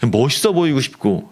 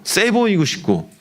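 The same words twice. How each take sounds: First: Said in the usual way. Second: 세 보이고 싶고 lifted higher and said slowly; mimicking teens who want to look tough, slow and high; emphatic, drawn out. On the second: Shown as a demonstration. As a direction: lean on 세 보이고 싶고, pitched up and stretched.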